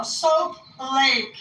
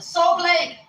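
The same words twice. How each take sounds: First: "Soap Lake" spelled out slowly, high; slow correction. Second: High, insistent "Soap Lake"; emphatic answer. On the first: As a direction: stretch each word of "Soap Lake" to be understood. Correcting those who misheard her. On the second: Answering where she is from. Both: Retold or imitated.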